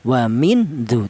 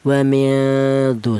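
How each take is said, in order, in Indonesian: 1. Bunyi n diucapkan penuh dan jelas. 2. Bunyi n disengaukan dan samar. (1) "tidak boleh dibaca jelas" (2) "Yang benar dibaca samar"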